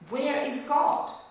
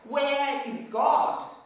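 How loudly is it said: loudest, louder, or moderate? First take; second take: louder; loudest. First: It is said a little louder than normal. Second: It is said very loudly, almost shouted. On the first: "he said a little bit louder" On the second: "he says really loudly"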